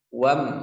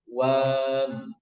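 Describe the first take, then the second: First: The vowel is short. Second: The vowel is drawn out long. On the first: The speaker calls it right. "ini dibaca pendek ya" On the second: The speaker calls it wrong. "Jadi jangan sampai"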